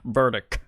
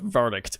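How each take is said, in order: First: The final T sound is dropped. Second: The final T sound is pronounced. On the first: The speaker calls it wrong. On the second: The speaker calls it right.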